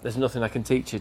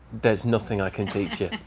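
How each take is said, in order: First: It sounds impressed and admiring. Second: It sounds exasperated and despairing. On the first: You are already so good there is nothing to improve. "He would have gone from" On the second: You are so bad you cannot be helped. "Just intonation"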